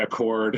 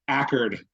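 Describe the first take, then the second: First: It sounds like the car name Accord. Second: It sounds like 'Ackerd', with a reduced ending. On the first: The speaker calls it wrong. "you'll get in trouble if you say Accord" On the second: The speaker calls it right. "Ackerd, if you're a local"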